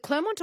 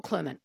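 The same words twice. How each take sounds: First: Clermont with a clearly voiced "-mont"; full second syllable. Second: Clermont with a weak "-munt" ending; reduced second syllable. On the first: Host checking the town's name with her guest, full "-mont" ending. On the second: Host offering the other name to her guest, reduced "-munt" ending. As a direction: say Clermont as "CLAIR-munt", swallowing the last vowel. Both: Shown as a demonstration. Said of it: "is it Clermont or Clermont".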